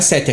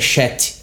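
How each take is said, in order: First: The word begins with a plain s sound. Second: The word begins with a hushing sh sound. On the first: "o 7 não é 7" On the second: "é chete"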